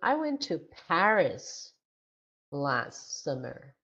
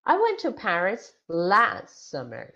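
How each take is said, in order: First: The stress falls on the word Paris. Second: The stress falls on the words last summer. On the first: It tells where the person went. "So the stress word is Paris" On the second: It tells when the person went. "So the stress is on last summer"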